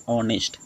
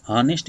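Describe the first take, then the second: First: ऑनेस्ट with a silent h, opening on the vowel; correct pronunciation. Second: हॉनेस्ट with a sounded h; wrong pronunciation. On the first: Teacher giving students the correct ऑनेस्ट, no h sound. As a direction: say ऑनेस्ट starting straight on the vowel. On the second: Teacher showing students the wrong way, हॉनेस्ट with h. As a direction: say हॉनेस्ट as the wrong version, breathing the h. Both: Shown as a demonstration. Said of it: "इसे नहीं बोलेंगे".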